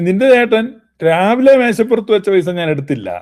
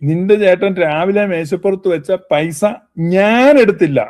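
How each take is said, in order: First: The stress falls on the word രാവിലെ. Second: The stress falls on the word ഞാൻ. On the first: Money left at another time may have been taken. "രാവിലെ എന്നുള്ളതിന് ഊന്നൽ കൊടുത്താൽ" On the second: Someone else may have taken it. "അപ്പൊ ഊന്നൽ ഞാനും കൊണ്ട് കൊടുത്തു കഴിഞ്ഞാൽ"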